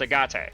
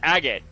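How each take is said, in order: First: The name is said with Japanese-style sounds. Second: The name is said with English-style sounds. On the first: "In Japanese his name is pr- pronounced" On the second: "in English his name is pronounced"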